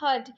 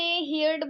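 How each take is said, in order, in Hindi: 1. स्वर 'her' वाले जैसा लगता है। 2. स्वर 'here' वाले जैसा लगता है। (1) "इसकी जो सही प्रोनाउंसिएशन है" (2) "बहुत सारे लोग इसे हियर्ड बोलते हैं... जो कि गलत है"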